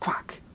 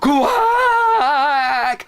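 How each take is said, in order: First: The quack is said at normal, quieter volume. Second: The quack is said very loudly.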